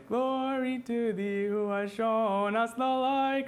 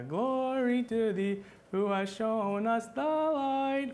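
First: Slow sung line leaning on "light"; right emphasis chant. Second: Slow sung line with "light" not stressed; wrong emphasis chant. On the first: Teacher showing students the correct chant emphasis. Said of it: "We would wanna say". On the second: Teacher showing students a badly stressed chant. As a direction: chant it with the weight in the wrong place. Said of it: "we wouldn't wanna sing like". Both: Shown as a demonstration.

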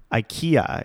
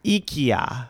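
First: "ikea" starting with an "eye" sound; American pronunciation of ikea. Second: "ikea" begun with "ee", slightly off; attempted Swedish pronunciation of ikea. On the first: Host giving the familiar but improper version, ikea as eye-KEE-uh. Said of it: "It's not actually pronounced that way". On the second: Host copying the husband's Swedish ikea, "ee" first but imperfect. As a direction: try "ikea" as ee-KEE-ah. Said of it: "I still didn't say it right". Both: Shown as a demonstration.

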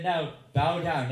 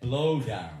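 First: "bow" said with a clear b and no l, slow and loud; "bow down" spoken slowly, like "bough"; bow down said right. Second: "Blow" said with an l after the b, loud; "Blow down", the way the devotees misheard it. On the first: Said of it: "And they said". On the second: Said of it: "They thought he said". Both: Retold or imitated.

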